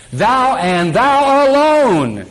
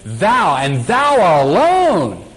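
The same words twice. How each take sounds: First: "Thou, and thou alone" higher and very slow, "alone" drawn out; emphatic thou. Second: "Thou" stressed, "thou alone" drawn out very slow; emphatic thou. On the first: Preacher underlining the word "thou" aloud, higher and very slow. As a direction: proclaim "thou alone" like capital letters. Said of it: "Underline it. Capitalize it". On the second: Preacher stressing "thou" as emphatic Hebrew, very slow. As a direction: lean hard on "Thou" and stretch "alone". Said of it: "is emphatic in the Hebrew". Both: Shown as a demonstration.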